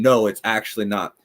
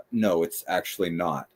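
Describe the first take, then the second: First: Firm refusal at normal volume; mildly forceful. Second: Low, soft aside to oneself; passive-aggressive mutter. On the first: What she could have said openly to the speaker, mildly forceful. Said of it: "not being forceful and saying". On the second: Board member muttering to herself as speaker moves podium, passive-aggressive. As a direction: imitate a passive-aggressive murmur under the breath. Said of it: "whisper to herself in a passive aggressive way". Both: Retold or imitated.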